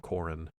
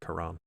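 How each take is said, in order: First: It sounds like coral ending in n. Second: It sounds like the word Quran. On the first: This follows the spelling. "spelled like coral, but with an N, so Corin" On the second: This is how the show pronounces it. "they pronounce it like Quran"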